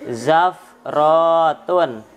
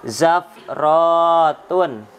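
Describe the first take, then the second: Both takes have the same delivery.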